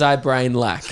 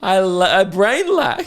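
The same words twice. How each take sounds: First: Quoting the friend through a laugh; lightly laughing as he repeats it; laughing quote. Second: Higher, louder, slow mock-dumb "I brain lack"; mock dopey friend. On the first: Retold or imitated. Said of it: "And he goes". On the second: Re-performs the friend's dopey line.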